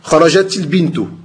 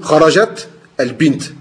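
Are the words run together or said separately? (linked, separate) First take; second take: linked; separate. First: The words are linked with an added vowel. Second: The words are said separately without linking.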